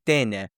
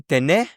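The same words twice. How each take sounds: First: Tene with the first E stressed, falling; stress on the first syllable. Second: Tene with the last syllable stressed, rising; wrong take: teNE, stress pushed to the end; stress on the final syllable. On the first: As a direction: say TE-ne, leaning on the first vowel. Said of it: "you say tene". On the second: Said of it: "you don't say tener". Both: Shown as a demonstration.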